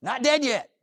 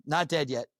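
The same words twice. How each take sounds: First: High, loud triumphant cry; triumphant exclaim. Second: Said in the usual way. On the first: Real, not acted. Survivor to audience, triumphant and loud. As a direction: announce you survived, rising high and bold. Triumphant catchphrase after surgery.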